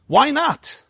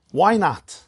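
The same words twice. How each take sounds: First: "not" pushed much higher and held; stress on not. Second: Said in the usual way. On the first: Shown as a demonstration. Rabbi repeating the question, hitting "not" high. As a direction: lean hard on the word "not".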